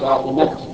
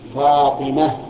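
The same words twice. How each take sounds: First: The word ends with a t sound. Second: The word ends with an h sound. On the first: The speaker calls it wrong. "ولا تقول هذه فاطمة كذا" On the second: The speaker calls it right. "تجعله هاء"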